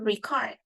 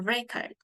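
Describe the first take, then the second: First: The stress is on the second syllable. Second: The stress is on the first syllable. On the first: It is a verb. "it's a verb. So we usually stress on the second syllable" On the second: It is a noun. "a record is noun. So it is put stress on the first syllable"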